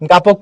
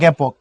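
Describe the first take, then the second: First: The first vowel is an open 'a' sound. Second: The first vowel sounds like an 'e'. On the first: The speaker calls it wrong. "গাপক পড়বা" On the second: The speaker calls it right. "পড়বা জ্ঞাপক"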